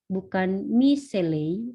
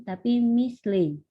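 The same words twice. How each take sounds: First: Slow, drawn-out "miseley" with the extra vowel; the wrong way, "mi-se-ley"; wrong reading. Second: Slow "misley" with "mis" as one tight syllable; the correct reading, "mis-ley"; right reading. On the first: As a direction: stretch "miseley" into four syllables, slowly. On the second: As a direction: say "misley" with no vowel after the s, slowly. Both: Shown as a demonstration.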